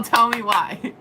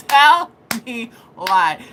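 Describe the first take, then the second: First: Said in the usual way. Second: Slow, emphatic "Tell me why" with a long "Tell"; drawn-out plea. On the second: Acted. Repeats it drawn out for effect.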